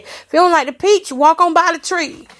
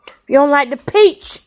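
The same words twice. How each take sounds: First: Higher, punchy sassy quote line. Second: Said in the usual way. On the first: Retold or imitated. Telling haters to walk on by, sassy and higher. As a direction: throw the saying out with sass. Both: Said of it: "that's what [name] said".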